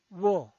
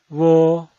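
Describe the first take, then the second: First: The pitch falls from high to low. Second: The pitch stays high and level. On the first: "El cuarto tono es un tono bajado" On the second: "El primer tono es alto y sostenido"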